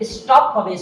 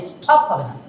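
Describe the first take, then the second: First: Said in the usual way. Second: স্টপ said as স্ঠপ, much lower, with a puff on the t; the wrong breathy স্টপ; wrong aspirated t. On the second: Shown as a demonstration. (ভুল উচ্চারণ: স্ঠপ)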